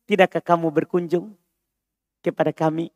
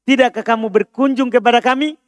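First: Soft and polite, inviting; gentle request. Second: Said in the usual way. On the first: Shown as a demonstration. Teacher showing a gentle Arabic request, softly polite. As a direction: ask it softly, like a kind invitation. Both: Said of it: "Paham permintaan lembutnya?".

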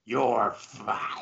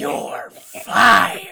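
First: Phlegmy Vince McMahon. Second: Huge, high, throaty roar in imitation; Vince McMahon. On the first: Acted. Friend demonstrating the boss's firing line, softly growled with phlegm. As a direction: rattle it softly in the back of the throat. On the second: Friend topping the boss's firing line, roaring impression. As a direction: explode on the last word with a throat full of phlegm. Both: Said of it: "should have a bunch of phlegm".

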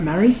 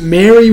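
First: Mary with a short "a", like "marry"; Mary with the vowel of "cat". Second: Mary with an open "eh", like "merry"; Mary with the vowel of "bed". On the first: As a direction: pronounce Mary to rhyme with "carry". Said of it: "Is that Mary?". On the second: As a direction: pronounce Mary to rhyme with "berry". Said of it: "is it Mary with two R's". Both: Shown as a demonstration.

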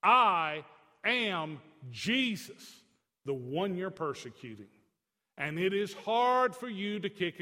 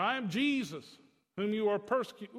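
First: Slow commanding divine voice; voice of Jesus. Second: Near-plain retelling of Jesus' words; just quote him, barely acting; Jesus' words said almost plainly; lightly voiced Jesus. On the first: Retold or imitated. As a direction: announce yourself with slow weight. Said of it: "So Jesus broke it down". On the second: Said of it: "You know".

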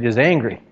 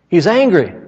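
First: Said in the usual way. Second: Higher and louder the second time; loud repeat. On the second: Shown as a demonstration. Preacher to the church, emphatic loud repeat. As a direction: punch it up for emphasis.

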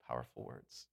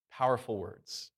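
First: "Powerful words." repeated much lower and much softer, almost under the breath; hushed echo. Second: Said in the usual way. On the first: Shown as a demonstration. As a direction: drop the voice right down and let "Powerful words." echo quietly. Preacher echoes phrase, dropping voice.

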